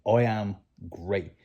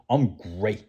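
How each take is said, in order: First: Slow, each word placed, great stressed; firm I am great with weight on great; emphatic I am great. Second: Great leaned on, rising; upbeat I'm great with weight on great; stress on great. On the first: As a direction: say it point blank, no doubt. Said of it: "with that emphasis and that attitude". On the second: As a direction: sell the word great. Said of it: "emphasis on the word great". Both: Shown as a demonstration.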